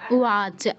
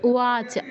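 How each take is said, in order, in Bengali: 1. মাঝের ব্যঞ্জনবর্ণটি একটি নরম w ধ্বনি। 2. মাঝের ব্যঞ্জনবর্ণটি একটি নরম w ধ্বনি।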